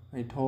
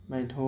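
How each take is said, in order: The two takes are said the same way.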